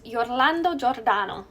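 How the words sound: The name is said with an Italian accent. "I have to say this with an Italian accent"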